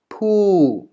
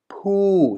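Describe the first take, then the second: First: The pitch falls across the syllable. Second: The same.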